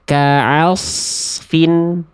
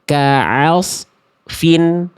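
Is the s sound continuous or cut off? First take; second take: continuous; cut off. First: The s sound flows continuously into the f. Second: The s sound is cut off midway. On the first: The speaker calls it right. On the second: The speaker calls it wrong.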